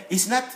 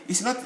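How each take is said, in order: The two takes are said the same way.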